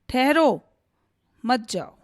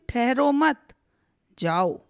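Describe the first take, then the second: First: There is a pause after 'ठहरो'. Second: There is a pause after 'मत'. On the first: The listener is told not to go. "Rohit ने सचिन को जाने से मना किया है" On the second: The listener is told to go. "यहाँ सुमित ने सचिन को जाने के लिए कहा है"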